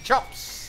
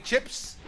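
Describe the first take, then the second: First: "chops" said high and loud as the Kiwi version of chips; New Zealand vowel. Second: Said in the usual way. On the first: Shown as a demonstration. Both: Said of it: "pronounce it with a U".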